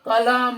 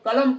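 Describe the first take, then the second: First: It ends with a drawn-out final a vowel. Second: It ends on the m with no vowel. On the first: The speaker calls it wrong. "कलम नहीं पढ़ते हैं" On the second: The speaker calls it right. "इसको हम लोग कलम पढ़ते हैं"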